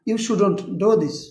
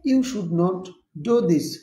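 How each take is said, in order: First: Should and not are joined into shouldn't. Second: Should and not are said as separate words. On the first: "একসাথে বলতে পারবেন শু ডন্ট" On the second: "you শুড নট"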